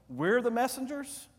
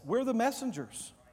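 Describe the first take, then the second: First: The voice rises at the end like a question. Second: The voice falls at the end like a statement. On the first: The speaker doubts or questions being the messengers. "you hear my inflection in my voice?" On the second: The speaker affirms being the messengers.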